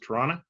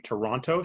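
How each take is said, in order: First: It is pronounced the way locals say it. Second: It is pronounced the way outsiders say it. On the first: The speaker is from the city. "And that's how we pronounce it" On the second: The speaker is not from the city. "she doesn't say Toronto"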